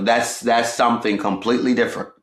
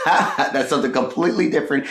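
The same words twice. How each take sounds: First: Said in the usual way. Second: Laughing. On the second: Real, not acted. Repeats phrase with a laugh.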